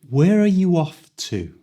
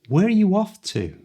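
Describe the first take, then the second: First: The question is spoken slowly and carefully. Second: The question is spoken at full natural speed.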